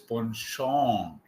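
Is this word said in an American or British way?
British. The word is said with a British pronunciation. "to the right is ponchon, uh, British"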